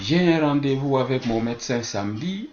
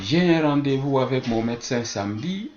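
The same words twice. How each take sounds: First: The unstressed E vowels are dropped. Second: The unstressed E vowels are dropped.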